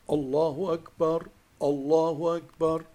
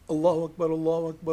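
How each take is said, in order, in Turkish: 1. İfadeler sakin bir şekilde, aralarında duraklar bırakılarak okunuyor. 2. İfadeler duraksız, hızlıca birbirine bağlanarak okunuyor. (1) "Cümlelerinin arasında ara vererek rahat okunur" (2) "ezan seri okunmaz ... şeklinde ezan olmaz"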